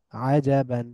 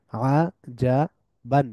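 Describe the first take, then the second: First: Said in the usual way. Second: আজাবান very slow, split a, ja, ban; syllable by syllable. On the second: Shown as a demonstration. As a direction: pause after each syllable of আজাবান. Teacher breaks word into syllables. (ভেঙে ভেঙে আজাবান)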